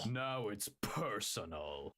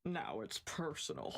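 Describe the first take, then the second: First: Slow, low action-hero line; blonde American hero voice. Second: Low, deep heroic one-liner; blonde American hero voice. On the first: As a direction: drag it out like a movie hero. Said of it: "You do it better than me afterwards". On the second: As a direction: growl it like an action hero. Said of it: "my best blonde American hero voice". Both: Acted.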